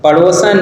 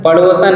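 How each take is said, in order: No difference in how they are said.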